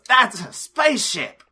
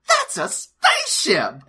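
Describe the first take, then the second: First: It is said with little surprise. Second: It is said with strong surprise.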